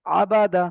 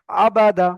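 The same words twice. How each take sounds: The two takes are said the same way.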